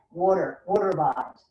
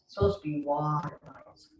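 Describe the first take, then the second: First: "water" said the New York way, wɔtə with a rounded aw; a playful New York "Water, water bottles"; New York accent. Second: Said in the usual way. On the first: Shown as a demonstration. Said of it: "Did you hear my New York accent?".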